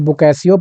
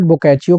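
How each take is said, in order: First: The middle consonant is an 's' sound. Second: The middle consonant is a 'ch' sound. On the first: "हम लोग अपने हिसाब से बोकैसियो पढ़ते हैं" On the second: "बोकैचियो कहा जाता है इसको इटालियन में"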